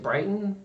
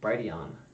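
First: The name is said like the town, Brighton. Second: The name ends with a sound like neon. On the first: The speaker calls it wrong. "I always say it Brighton" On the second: The speaker calls it right. "but it's actually Brighteon"

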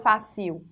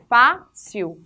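First: The last syllable is stressed instead. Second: The first syllable is stressed and opened. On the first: The speaker calls it wrong. "não falo fácil" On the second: The speaker calls it right. "falo fácil, porque eu estou abrindo a, a minha vogal onde tem um acento agudo"

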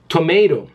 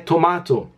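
First: It is said with an American accent. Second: It is said with a British accent. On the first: "os americanos é tomato" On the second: "os ingleses é tomato"

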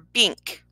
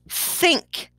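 First: The word begins with a b sound. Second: The word begins with a th sound. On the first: The speaker calls it wrong. "or bink" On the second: The speaker calls it right. "we're asking them to say think"

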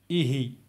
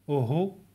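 First: The word is said with i vowels. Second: The word is said with u vowels. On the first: This is the form taught as the main one. "instead of ihi" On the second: This is how some other dialects say it. "there are some other dialects that pronounce it like uhu"

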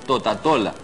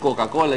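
First: The consonants are said as T sounds. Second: The consonants are said as K sounds. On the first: "la C la cambian por T" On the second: "en lugar de decir Coca-Cola"

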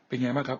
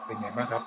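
First: The voice is heard in a quiet place. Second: The voice is heard over noise aboard a train. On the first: "ในที่เงียบครับ" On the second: "sky train ครับบนรถไฟฟ้าครับ"

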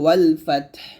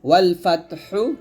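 First: The last word ends on a bare consonant. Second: The last word ends with a short vowel. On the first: "পড়তে হবে ওয়াল ফাতহ" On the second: "ওয়াল ফাতহু পড়তে হবে"

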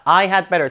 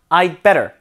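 First: The word had is pronounced in full. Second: The word had is contracted to a 'd sound.

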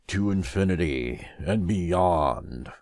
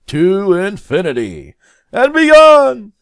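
First: The phrase is said flatly, without heroic energy. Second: The phrase is said boldly, with heroic energy. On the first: The speaker calls it wrong. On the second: The speaker calls it right.

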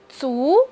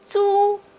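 First: The pitch rises from mid to high. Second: The pitch stays high and level. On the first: "它的二声是足" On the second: "我们把租的四声也来读一下"

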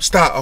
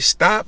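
First: It is said in a firm, serious way. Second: It is said in a playful, teasing way.

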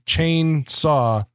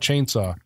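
First: Chain and saw are split into separate words. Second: Chainsaw is run together as one word. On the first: The speaker calls it right. "on the title it's broken up into two words" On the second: The speaker calls it wrong. "It's not Chainsaw"

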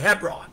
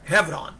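First: The consonant after the first vowel is B. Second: The consonant after the first vowel is V. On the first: This is how it is said in the West. "in the West we say Hebron" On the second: This is how it is said in Israel. "in Israel they pronounce it Hebron, with a V as in Victor"

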